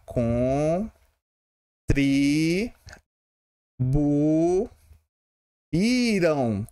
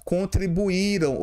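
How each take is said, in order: First: "Contribu-, iram" broken apart with a long gap; split into syllables. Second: Said in the usual way. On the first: Shown as a demonstration. Teacher showing students how to split the word, syllable by syllable. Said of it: "É assim, ó". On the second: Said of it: "contribuíram se separa assim".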